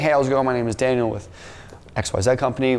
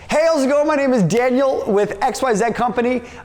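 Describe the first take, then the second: First: It is said in a flat, low-energy way. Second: It is said in an excited, high-energy way. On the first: The speaker calls it wrong. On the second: The speaker calls it right.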